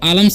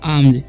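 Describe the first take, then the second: First: The L sound is pronounced in the word. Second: The L sound is left out of the word. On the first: The speaker calls it wrong. "इसे हम आलम्स नहीं पढ़ेंगे" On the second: The speaker calls it right. "यहाँ पर एल silent है"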